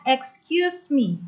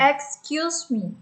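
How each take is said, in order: First: Slow "Excuse me" with a falling end; teacher models "Excuse me"; careful pronunciation. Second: Slow repeat of "Excuse me" with a falling end; student echoes "Excuse me". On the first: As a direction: say "Excuse me" slowly for students to copy. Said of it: "Cara pengucapannya". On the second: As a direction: copy the teacher's "Excuse me" slowly. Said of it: "Coba, coba, Pi". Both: Shown as a demonstration.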